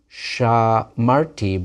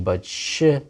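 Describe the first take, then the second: First: Shamarti slowly, stress on the middle syllable mar; slow Shamarti, weight on mar, first vowel kept full. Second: Shmartem with stress on the final tem, first vowel squeezed out; shmartem, first vowel contracted, stress on tem; stress on the ending. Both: Shown as a demonstration. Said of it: "The accent follows them to the end".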